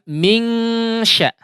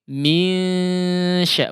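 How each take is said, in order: First: A full, distinct 'ng' sound precedes the 'sy'. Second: The nasal is light, with air through mouth too. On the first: The speaker calls it wrong. "bukan mingsya ya" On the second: The speaker calls it right. "udara ya keluar dari khaysum karena memang dighunnahkan"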